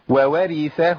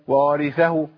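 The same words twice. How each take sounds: First: Two distinct waw sounds are heard at the start. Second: Only one waw sound is heard at the start. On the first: The speaker calls it right. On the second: The speaker calls it wrong.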